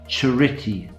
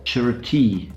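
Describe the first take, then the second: First: The stress is on the second syllable. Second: The stress is on the final syllable. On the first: "put the stress on the second of the three syllables" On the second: "put it on the final syllable"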